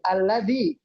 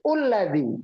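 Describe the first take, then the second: First: The word begins with an 'a' vowel. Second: The word begins with a 'u' vowel. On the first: The word before ends in an 'a' sound. "Kalau kata sebelumnya bunyinya a" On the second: The word before ends in a 'u' sound. "Kalau kata sebelumnya bunyi u"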